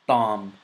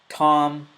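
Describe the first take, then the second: First: It starts with a dental t sound. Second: It starts with an English t sound. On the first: "next with the ta" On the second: "So the first with the T"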